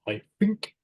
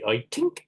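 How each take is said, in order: First: The th sound is replaced by an f. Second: The th sound is replaced by a t. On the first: "they pronounce it like an F" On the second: "The Irish might say I tink"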